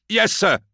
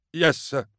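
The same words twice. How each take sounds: First: Very high, loud answer; high, forced-up acknowledgement; louder obedient reply. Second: High-pitched answer at ordinary volume; meek, high acknowledgement. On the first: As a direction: project the answer to satisfy the court. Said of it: "Green lights". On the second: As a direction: answer high but without projecting. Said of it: "Green lights, Prid". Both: A narrator's reading.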